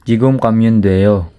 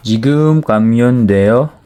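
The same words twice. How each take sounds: First: "지금 가면 돼요." said as a statement, falling at the end; "지금 가면 돼요." with a falling statement tune. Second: "지금 가면 돼요?" asked with a rising question tune; "지금 가면 돼요?" said as a question rising at the end. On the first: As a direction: state "지금 가면 돼요." flatly with a period, no rise. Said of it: "Tuldok lang eh". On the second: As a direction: ask "지금 가면 돼요?" as a question, pitch up at the end. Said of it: "Hindi, hindi pala 돼요". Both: Shown as a demonstration.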